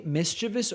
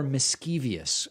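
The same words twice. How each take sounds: First: Said in the usual way. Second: "mischievous" said with an extra syllable, mis-CHEE-vee-us; variant pronunciation. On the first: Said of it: "Do you guys say mischievous or mischievous". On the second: Shown as a demonstration. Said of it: "I'm not familiar with that pronunciation".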